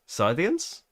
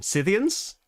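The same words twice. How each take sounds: First: "Scythians?" with a long i, SY-thee-ans, rising like a question; unsure alternative pronunciation. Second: "Scythians?" said with a short i, SITH-ee-ans, rising higher like a question; unsure pronunciation. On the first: Host testing a second way to say the faction, rising and unsure. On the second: Host guessing how to say the faction name, rising and unsure. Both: Shown as a demonstration. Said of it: "I should have looked up the pronunciation".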